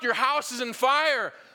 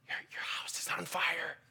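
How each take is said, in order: First: It is said loudly and urgently. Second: It is said softly and timidly.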